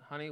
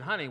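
First: It is said at normal conversational volume. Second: It is said a little louder than normal. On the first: "in a normal conversation tone" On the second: "just with a little louder voice"

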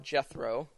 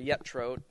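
First: The name has its usual English pronunciation. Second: The name has a more Hebrew-like pronunciation.

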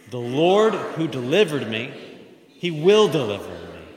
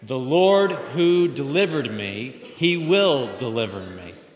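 First: The line is said firmly and with strong conviction. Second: The line is read in a plain, even manner.

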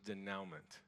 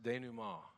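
First: The word is pronounced in an English-like way. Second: The word is pronounced in a French way. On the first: The speaker calls it wrong. "The word I was saying was" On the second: The speaker calls it right. "the word is pronounced denouement. It's French"

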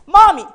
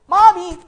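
First: It is called out more loudly. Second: It is called out more softly.

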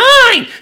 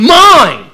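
First: It is said in a whiny, childish way. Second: It is said in a sulky, bratty way. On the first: A small child is grabbing something for himself. "he's not like some two-year-old sibling. He's like" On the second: A selfish teenager is being possessive. "he also doesn't sound like a brat teenager going"

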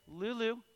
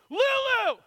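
First: The name is said softly and gently. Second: The name is said loudly and sharply.

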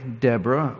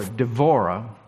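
First: The middle consonant is a b sound. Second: The middle consonant is a v sound. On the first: This is the usual English form of the name. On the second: This is how the name sounds in Hebrew.

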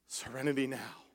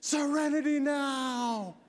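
First: It is said calmly and quietly. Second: It is screamed very loudly.

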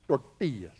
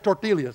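First: The double L is sounded like a Y. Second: The double L is sounded like an L. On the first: The speaker calls it right. "Can you say that?" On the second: The speaker calls it wrong. "Don't say tortillas"

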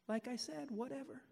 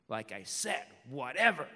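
First: It sounds plain and neutral. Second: It sounds rude and dismissive.

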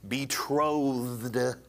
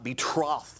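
First: The second syllable does not sound like trough. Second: The second syllable sounds like the word trough. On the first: The speaker calls it right. "Betrothed, not betrothed" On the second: The speaker calls it wrong. "It's like a trough that an animal would eat out of"

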